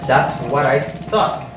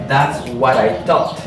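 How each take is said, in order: No difference in how they are said.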